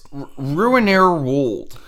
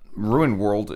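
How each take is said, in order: First: The name has an extra 'er' syllable after Ruin. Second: The name is said with no middle 'er' syllable. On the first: The speaker calls it right. "It's Ruinair World" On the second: The speaker calls it wrong. "I'm saying it wrong"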